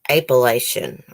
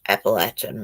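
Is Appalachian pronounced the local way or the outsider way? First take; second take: outsider; local. First: It is pronounced the way outsiders say it. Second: It is pronounced the way locals say it. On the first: This is how people from elsewhere say it. The speaker calls it wrong. "People away from here call it um" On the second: This is how people from the region say it. The speaker calls it right. "That's the way we say it"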